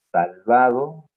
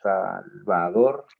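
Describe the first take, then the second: First: Said in the usual way. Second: Salvador said slowly, the final r clear, rising. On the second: Shown as a demonstration. Teacher contrasting Salvado and Salvador, slow. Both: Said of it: "A ver".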